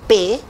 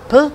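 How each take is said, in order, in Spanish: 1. Se pronuncia en voz alta el nombre completo de la letra. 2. Solo se produce el sonido consonántico. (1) "Ahí estoy dando el nombre del grafema" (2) "Como fonemas hago solo el sonido"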